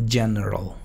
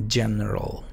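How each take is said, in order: The two takes are said the same way.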